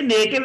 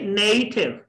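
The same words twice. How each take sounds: First: नेटिव with flat E and hard T, neh-tiv; wrong local pronunciation. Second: नेटिव as NAY-thiv, gliding vowel; correct English pronunciation. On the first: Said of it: "तो ये नेटिव नहीं". (नेटिव देसी तरीके से, बिना साँस के ट) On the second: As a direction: stretch the NAY in नेटिव and aspirate the T. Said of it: "ये नेटिव नहीं". (नेटिव को नेय-ठिव, साँस के साथ) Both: Shown as a demonstration.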